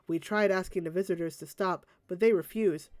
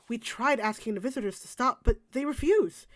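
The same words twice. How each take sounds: First: It is read flatly with little inflection. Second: It is read expressively with lively inflection. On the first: It sounds like reading lines, not being the character. The speaker calls it wrong. "instead of just going" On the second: It sounds like being the character. The speaker calls it right. "Put a bit more effort into it"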